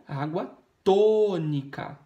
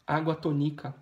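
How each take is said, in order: First: "tônica" with a long, loud TÔ; slow down and belt the TÔ in "tônica"; stress on TÔ. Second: "tônica" said to-NI-ca after água; accent the second syllable of "tônica"; wrong middle stress. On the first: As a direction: stretch the first syllable of "tônica". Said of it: "as duas mais fortes". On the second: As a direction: misplace the beat onto NI in "tônica". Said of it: "Não". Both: Shown as a demonstration.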